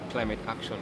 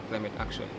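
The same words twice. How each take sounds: The two takes are said the same way.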